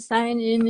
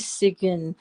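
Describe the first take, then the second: First: It sounds like the two words sign in. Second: It sounds like sig-in, with a short i. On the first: The speaker calls it wrong. "Everybody thinks it's sign in, but it's not sign in" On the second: The speaker calls it right. "It's supposed to be Sigyn"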